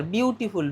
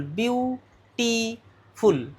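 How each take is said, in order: First: Said in the usual way. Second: বিউটিফুল drawn out slowly in three separate beats; syllable by syllable. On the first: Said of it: "তিনবারে উচ্চারণ হলো". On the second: Shown as a demonstration. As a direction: split বিউটিফুল slowly into বিউ, টি, ফুল. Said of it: "তিনবার". (বিউটিফুল তিন ভাগে ভেঙে ধীরে ধীরে)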